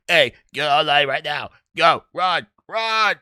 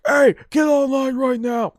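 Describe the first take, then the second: First: Imitating a drill instructor with a frog in his throat; froggy drill instructor. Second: High shouted order; ordinary yell. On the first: Recruit mimics how drill instructors really sound, froggy imitation. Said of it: "sound like they got frogs in their throats". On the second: Retold or imitated. Recruit imagines a drill instructor's usual order, shouted high. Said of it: "you would think they'd be yelling like".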